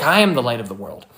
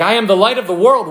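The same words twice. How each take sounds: First: Said in the usual way. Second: Higher and louder, a proclaimed call; crying out. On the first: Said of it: "and he's like". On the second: Retold or imitated. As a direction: call it out to the crowd. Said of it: "he's, like, crying out to people".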